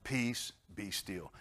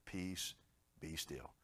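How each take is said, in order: First: Slowly, gently; slow calm. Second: Soft, low, gentle; calm command. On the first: Shown as a demonstration. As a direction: draw it out peacefully. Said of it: "what are you worried about". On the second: Retold or imitated. God calming the worried congregation, soft and low. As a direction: hush the storm tenderly.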